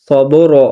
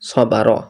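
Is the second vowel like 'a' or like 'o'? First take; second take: o; a. First: The second vowel sounds like a rounded 'o'. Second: The second vowel sounds like a thin 'a'. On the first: The speaker calls it wrong. "সবর এরকম না হয়ে যায়" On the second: The speaker calls it right. "সবার হবে"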